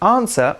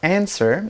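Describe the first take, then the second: First: It is said with a British pronunciation. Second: It is said with an American pronunciation.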